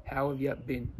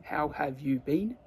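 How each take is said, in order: First: Reduced Australian "how've ya bin"; casual Australian greeting, "you" weakened to "ya"; Australian accent. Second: Said in the usual way. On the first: Shown as a demonstration. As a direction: run it together like an Aussie. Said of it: "con nuestro acento". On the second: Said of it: "Aquí sería".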